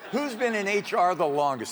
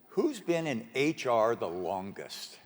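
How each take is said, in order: First: It is said at a louder volume. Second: It is said at a softer volume.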